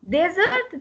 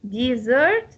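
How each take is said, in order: First: The stress is on the first syllable. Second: The stress is on the second syllable. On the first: It is a noun. "the stress will go on the first part, the first syllable" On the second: It is a verb meaning to leave. "it will have the same pronunciation as dessert"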